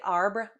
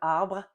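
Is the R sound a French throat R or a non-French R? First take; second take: non-French R; French R. First: The R is not pronounced as a French R. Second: The R is pronounced as a French R. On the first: The speaker calls it wrong. "if you say arbre instead of" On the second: The speaker calls it right. "instead of arbre"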